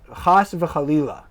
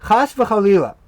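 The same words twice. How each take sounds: First: Slow chas v'chalila, throaty ch; Hebrew phrase. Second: Chas v'chalila said higher and louder; exclaimed. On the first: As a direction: spell out chas v'chalila slowly. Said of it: "you'll hear the phrase". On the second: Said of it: "this doubled up expression". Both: Shown as a demonstration.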